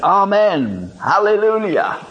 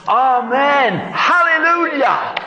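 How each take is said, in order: First: Amen, hallelujah called out higher; calling out. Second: Amen, hallelujah shouted very high; joyful shout. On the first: Preacher leading the congregation, calling out. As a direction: lift the praise up. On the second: Leading the congregation together, a joyful shout. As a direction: shout it to the rafters. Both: Shown as a demonstration. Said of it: "Let's say it all together".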